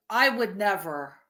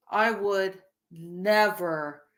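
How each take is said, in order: First: Said in the usual way. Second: "would never" drawn out slowly; emphatic denial. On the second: Real, not acted. Repeats a firm denial slower.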